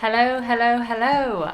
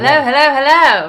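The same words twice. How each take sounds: First: It is said with low energy. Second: It is said with high energy.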